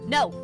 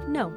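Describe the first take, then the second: First: It is strong, sudden and forceful. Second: It is light, quick and direct.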